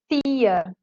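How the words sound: Said with a Florianópolis island accent. "A pessoa que é nascida aqui na ilha de Florianópolis, ela vai dizer tia"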